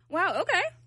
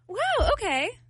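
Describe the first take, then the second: First: It sounds mocking and sarcastic. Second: It sounds warm and supportive.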